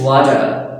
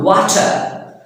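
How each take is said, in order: First: The middle consonant is a d-like American sound. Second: The middle consonant is a clear t.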